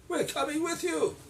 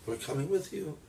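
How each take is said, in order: First: Put-on much higher, pleading young woman's voice; young women. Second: Said in the usual way. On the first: Daughters-in-law pleading with Naomi, high voice. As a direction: insist sweetly.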